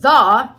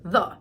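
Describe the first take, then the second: First: The word is said with a full vowel. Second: The word is said with a weak, reduced vowel. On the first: "Instead of the" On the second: "you're going to hear the"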